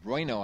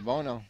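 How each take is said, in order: First: The name is said with a 'bway' start, 'BWAY-no'. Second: The name is said as two syllables, 'BO-no'. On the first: The speaker calls it right. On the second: The speaker calls it wrong.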